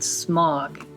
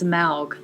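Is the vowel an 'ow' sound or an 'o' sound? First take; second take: o; ow. First: The vowel sounds like 'o', not 'ow'. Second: The vowel sounds like 'ow'. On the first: The speaker calls it wrong. "not Smog" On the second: The speaker calls it right. "A U is pronounced like ow"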